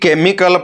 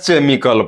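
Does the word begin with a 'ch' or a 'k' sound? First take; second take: k; ch. First: The word begins with a 'k' sound. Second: The word begins with a 'ch' sound. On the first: The speaker calls it right. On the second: The speaker calls it wrong.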